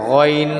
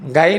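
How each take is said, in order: First: The first vowel is a short, rounded o. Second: The first vowel is an open, long a. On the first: The speaker calls it right. "গইন জবর গ" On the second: The speaker calls it wrong. "গাইন হবে না"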